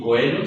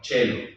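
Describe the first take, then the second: First: The first vowel is the diphthong oe. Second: The first vowel is a plain e. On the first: The speaker calls it wrong. "ni coelum" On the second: The speaker calls it right. "sino cellum"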